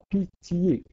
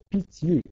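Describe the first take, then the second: First: The word is said in three syllables. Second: The word is said in two syllables. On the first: The line would get one syllable too many. The speaker calls it wrong. "et non pas pitié" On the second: The line keeps its twelve-syllable count. The speaker calls it right. "il y a synérèse, il faut prononcer pitié"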